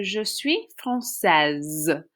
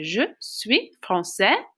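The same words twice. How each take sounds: First: Française slowed, ending in a long Z sound; feminine pronunciation. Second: Français ending on an open vowel, silent S; slow, word-by-word model, français without final S; masculine pronunciation. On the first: Teacher shows a girl's sentence, française ending in Z. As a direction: finish française on a buzzing "-sezz". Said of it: "makes you pronounce the S". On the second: Teacher shows a boy's sentence, français with silent S. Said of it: "So a boy". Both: Shown as a demonstration.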